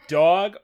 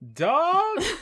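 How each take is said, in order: First: It is said in an accusing tone. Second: It is said in a friendly, casual tone.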